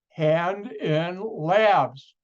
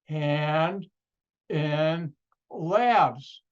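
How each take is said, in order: First: It is said at normal speed. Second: It is said very slowly.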